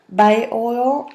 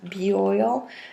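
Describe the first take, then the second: First: The first part sounds like 'bio'. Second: The first part sounds like 'bee'. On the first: This is how the name may be said in the US. "Maybe you pronounce it bio oil" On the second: This is how the name is said in France. "here in France is bee oil"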